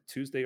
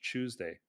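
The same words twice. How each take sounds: First: The word begins with a clear t sound. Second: The word begins with a ch sound. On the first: "T Tuesday" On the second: "ch Tuesday"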